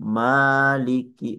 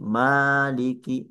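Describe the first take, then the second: The two takes are said the same way.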